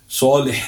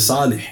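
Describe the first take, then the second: First: It starts with a heavy, emphatic s sound. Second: It starts with a light, plain s sound. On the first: The speaker calls it right. "instead of saying saw" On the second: The speaker calls it wrong. "they say seen"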